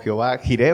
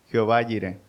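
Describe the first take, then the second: First: The J is said as a Spanish jota sound. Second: The name is said with a Hebrew-style J sound. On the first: "aquí en México la J es Jiré" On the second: "en hebreo"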